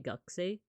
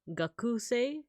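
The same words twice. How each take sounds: First: The middle u vowel is skipped. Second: The middle u vowel is clearly pronounced. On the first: The speaker calls it right. "You would say gakusei" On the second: The speaker calls it wrong. "You wouldn't say gakusei unless you really wanted to enunciate it"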